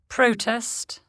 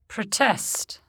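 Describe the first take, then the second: First: The stress is on the first syllable. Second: The stress is on the second syllable. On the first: It is a noun or adjective. "Many nouns and adjectives are stressed on the prefix" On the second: It is a verb. "the corresponding verb is stressed on the stem"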